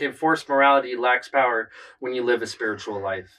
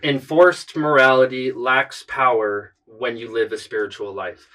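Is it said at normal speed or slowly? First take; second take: normal speed; slowly. First: It is said at normal speed. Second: It is said a little more slowly.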